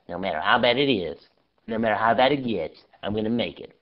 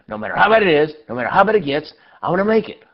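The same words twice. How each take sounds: First: It is said weakly and timidly. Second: It is said loudly and forcefully.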